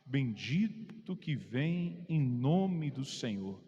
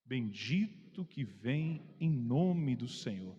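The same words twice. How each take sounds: No difference in how they are said.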